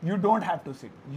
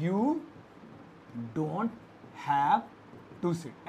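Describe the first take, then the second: First: Slow, smooth model sentence said whole; slow full sentence. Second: "you don't have to sit" split into separate words with long pauses. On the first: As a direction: say it slowly as one phrase. (पूरा वाक्य धीरे से एक साथ) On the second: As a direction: break "you don't have to sit" word by word, lower each time. ("you don't have to sit" शब्द-शब्द रुककर) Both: Shown as a demonstration. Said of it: "तो you लगा देंगे इसमें".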